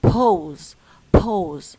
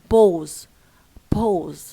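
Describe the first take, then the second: The two takes are said the same way.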